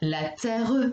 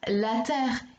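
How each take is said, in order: First: The final E sound is pronounced. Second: The final E sound is silent. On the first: The speaker calls it wrong. "et non la terre" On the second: The speaker calls it right. "On dit bien la terre"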